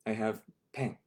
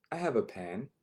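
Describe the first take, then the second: First: I have pen, with the article dropped; broken English. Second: Said in the usual way. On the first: Shown as a demonstration. Teacher playfully mangling the sentence, dropped article.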